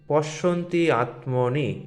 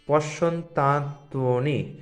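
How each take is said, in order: First: The two words are said separately, not joined. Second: The two words are fused into one joined word. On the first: "পশ্যন্তি আত্মনি পড়লেও অসুবিধা হবে না প্রথম প্রথম" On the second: "যদি পশ্যন্তাৎ পশ্যন্তাত্মনি পড়তে না পারেন"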